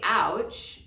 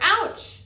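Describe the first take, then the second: First: It is said at normal volume. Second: It is said a little louder.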